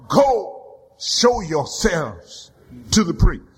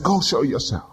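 First: Slow, low command; Jesus sends the lepers away. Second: Much lower, curt command; Jesus' brief command; short command. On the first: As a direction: lay down the command with weight. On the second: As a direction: bark it once. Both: Acted.

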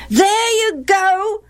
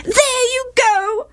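First: High, drawn-out sing-song echo; chorusing boys. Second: Very high, drawn-out wail. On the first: Boys echo their mother at Gilead, chorusing. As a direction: parrot mother like jeering children. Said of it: "the other boys chorused". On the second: Wife complains to Gilead, wailing. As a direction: wail the accusation slowly at high pitch. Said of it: "wailed Gilead's wife". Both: A narrator's reading.

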